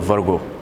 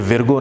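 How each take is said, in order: First: The first vowel is an a sound. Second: The first vowel is an i sound. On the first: The speaker calls it right. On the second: The speaker calls it wrong.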